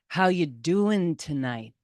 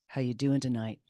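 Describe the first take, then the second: First: It is said louder, with rising intensity. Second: It is said quietly, almost under the breath.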